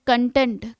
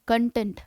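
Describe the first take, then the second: First: कंटेंट stressed on first syllable, KON-tent; noun content. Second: कंटेंट stressed on second syllable, kən-TENT; adjective content. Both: Shown as a demonstration. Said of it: "हम इसको बोलते हैं, pronunciation different है".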